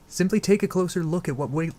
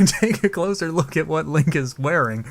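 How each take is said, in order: First: Said in the usual way. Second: Slow, laughing retake. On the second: Real, not acted. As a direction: laugh through the corrected line. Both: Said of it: "God damn it".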